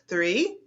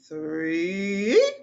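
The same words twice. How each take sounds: First: The word is said short and plain. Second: The word is drawn out and exaggerated.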